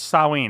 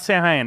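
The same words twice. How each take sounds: First: The name sounds unlike its written letters. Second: The name is sounded out as it is spelled. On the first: The speaker calls it right. "It's Samhain. / It doesn't sound like it's spelled" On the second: The speaker calls it wrong. "It's not Samhain"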